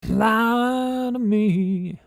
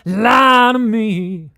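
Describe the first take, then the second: First: The voice is soft and restrained. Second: The voice is a rough, heavy growl. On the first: "What if I want it to be subtle?" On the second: "make a really uh growl"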